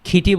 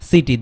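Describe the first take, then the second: First: The word begins with a breathy k sound. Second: The word begins with a soft s sound. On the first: The speaker calls it wrong. "খিটি বললে হবে না" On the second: The speaker calls it right. "দন্ত স এর মতো হবে, soft সি"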